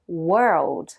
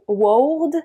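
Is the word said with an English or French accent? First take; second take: English; French. First: It is said with a compact native English accent. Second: It is said with a French accent. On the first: The speaker calls it right. "les natifs disent world. Très compact, très fluide" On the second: The speaker calls it wrong. "Beaucoup de Français disent quelque chose comme"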